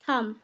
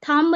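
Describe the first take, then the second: First: The word ends in m with no b. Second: The word ends with an audible b. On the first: The speaker calls it right. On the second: The speaker calls it wrong.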